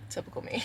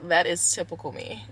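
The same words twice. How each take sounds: First: "typical me" whispered to herself; a rueful whispered repeat of typical me; whispered echo. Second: Said in the usual way. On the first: Shown as a demonstration.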